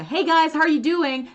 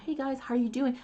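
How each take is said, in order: First: High, loud YouTuber-style greeting; imitating video hosts. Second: Softer, higher echo of a video greeting; practicing by mimicry. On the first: Video host greeting viewers, imitated loud and high. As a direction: mimic an English video host hailing viewers. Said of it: "they were saying, like". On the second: Learner copying the video at the screen, quiet mimicked greeting. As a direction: repeat it back quietly like a learner. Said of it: "like, watching the screen".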